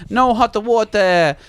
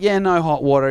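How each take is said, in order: First: Slow, higher mock Italian accent. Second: Said in the usual way. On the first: Italian plumber reporting the fault to tenant, mock accent. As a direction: stretch it out as a hammed-up Italian plumber. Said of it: "He's Italian".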